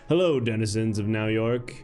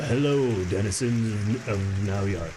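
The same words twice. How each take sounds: First: It is said in a natural everyday voice. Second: It is said in a put-on character voice. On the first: "I'm probably just gonna do my normal voice" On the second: "I have to figure out the voice for this guy"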